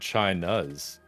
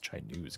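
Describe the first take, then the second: First: The name sounds like the word China's. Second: The name sounds like 'Chai News', two syllables. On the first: The speaker calls it wrong. "I've been pronouncing that super wrong" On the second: The speaker calls it right. "that's Chai News"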